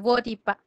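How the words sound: The middle consonant is an r sound. This is the Socorpa dialect form. "en el resguardo Socorpa, nosotros para decir mujer, decimos Voripa, se escucha más la R"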